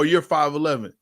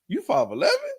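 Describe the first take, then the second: First: It is said as a plain, accepting statement. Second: It is said in a doubting, questioning tone. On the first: The speaker accepts the height as true. "let me give you a difference" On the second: The speaker doubts the height is true. "That's a questioning tone"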